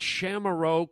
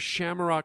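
First: It is said at a normal, unhurried speed. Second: It is said quickly, sped up.

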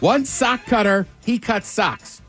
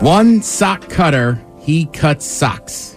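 First: It is said fast. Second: It is said at a normal pace.

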